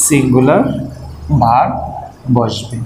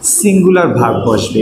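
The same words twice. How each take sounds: First: singular, verb, বসবে with a pause after each; singular verb বসবে split by long pauses, dropping lower at the end; word by word. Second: Said in the usual way. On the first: Shown as a demonstration. Teacher repeats rule word by word.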